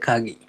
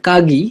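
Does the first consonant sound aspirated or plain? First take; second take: aspirated; plain. First: The word starts with an aspirated kh sound. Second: The word starts with a plain k sound. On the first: This is how the word is actually spoken. "But বলে হচ্ছে খাগি" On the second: This is how the word is written. "জাপানিজরা লেখে হচ্ছে কাগি"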